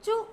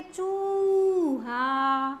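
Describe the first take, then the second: First: चू clipped, not the full word; a cut-off चू as the mistake; wrong short take. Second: चूहा very slow with the oo held long; long oo sound. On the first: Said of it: "चू नहीं बोलेंगे". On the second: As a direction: hold the big oo in चूहा. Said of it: "बड़ा sound लेंगे". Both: Shown as a demonstration.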